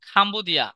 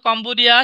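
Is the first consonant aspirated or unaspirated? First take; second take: aspirated; unaspirated. First: The first k sound has a puff of breath. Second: The first k sound is plain, without a breath. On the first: "সে বলবে খাম্বোদিয়া" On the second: "বলো তো কম্বোডিয়া"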